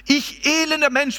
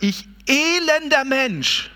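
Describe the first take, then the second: First: Higher and quicker second cry, peaking on "elender"; lament. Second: Slow, drawn-out lament on "elender", higher and set apart from the preaching voice. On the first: Preacher repeating Paul's lament higher and quicker. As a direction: repeat "elender" pitched up like a plea. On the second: Preacher voicing Paul's lament, first slow and drawn out. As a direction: stretch out "elender" slowly like a groan of grief. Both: Retold or imitated. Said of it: "da ist die Klage dann".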